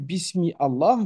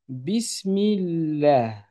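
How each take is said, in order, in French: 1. Les mots sont prononcés séparément, sans liaison. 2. Les mots sont liés en une seule unité fluide. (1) "non plus" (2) "je dois faire une liaison"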